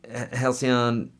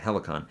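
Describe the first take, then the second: First: The name is said like 'hal-see-on'. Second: The name is said like 'hel-i-con'. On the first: The speaker calls it wrong. "I've always pronounced that wrong" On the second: The speaker calls it right. "how do you say it? Helicon"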